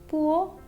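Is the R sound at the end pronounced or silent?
silent. The final R sound is not pronounced. This is the British English form.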